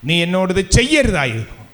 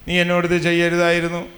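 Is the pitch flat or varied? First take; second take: varied; flat. First: The pitch rises and falls expressively. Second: The pitch stays flat like plain reading. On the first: The speaker calls it right. "വേറൊരു വിധത്തിൽ പറയാം" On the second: The speaker calls it wrong. "വായിക്കും പോലെ ഇരിക്കും നമ്മൾ"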